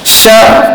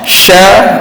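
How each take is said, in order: First: The sh sound is thin, made at the front only. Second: The sh sound is full, using the whole tongue. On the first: The speaker calls it wrong. "Sya masih lagi tak sempurna" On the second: The speaker calls it right. "Sya baru sempurna"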